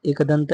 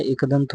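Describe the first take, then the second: First: एकदंत opening on a wide ai vowel; wrong pronunciation. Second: एकदंत opening on a narrow, short vowel; correct pronunciation. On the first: Teacher showing the wrong form, wide-vowel "aikdant". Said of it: "नहीं होता है". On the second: Teacher giving the correct form, narrow-vowel "ekdant". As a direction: say एकदंत close to "ikdant". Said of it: "एकदंत होता है". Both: Shown as a demonstration.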